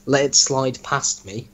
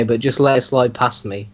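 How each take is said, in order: First: Slow, puzzled repeat of the phrase; incredulous reread. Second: Said in the usual way. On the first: Shown as a demonstration. Host rereading his friend's story line, slow and incredulous. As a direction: read it back to the writer as if it makes no sense.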